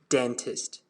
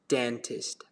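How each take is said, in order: First: It is said in a British accent. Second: The same.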